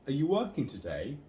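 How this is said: The word 'you' is reduced and unstressed. It is already clear who is being addressed. "you is pronounced as y in this weak form"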